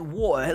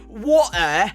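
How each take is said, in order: First: The word is said smoothly and naturally. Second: The word is said with exaggerated British sounds. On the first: "it's like a very fluent way of saying it" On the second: "it's not like you exaggerate to say water"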